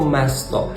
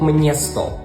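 First: The first syllable is plain 'me', without an n. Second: The first syllable is 'mnie', with an n. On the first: The speaker calls it wrong. "це не слово «место»" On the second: The speaker calls it right. "але це слово «мнєсто»"

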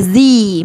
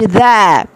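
First: The vowel is a long 'ee' sound. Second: The vowel is a short weak 'uh' sound. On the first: The next word starts with a vowel. The speaker calls it right. "نقولها زي" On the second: The next word starts with a consonant. The speaker calls it wrong. "ما نقولش ذا"

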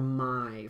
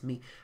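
First: The vowel sounds like eye. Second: The vowel sounds like ee. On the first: The speaker calls it wrong. "or my for like might" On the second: The speaker calls it right. "We actually say me"

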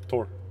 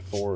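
First: The name begins with a plain t sound. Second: The name begins with a th sound. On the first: "In Danish, we don't pronounce the H in Thor" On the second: "both are actually valid"

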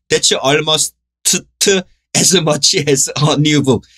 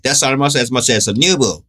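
First: The words are tangled and stumbling. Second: The words flow smoothly without stumbling. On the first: The speaker calls it wrong. "이렇게 처음엔 이렇게 돼요" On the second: The speaker calls it right. "혀 꼬이지 않게"

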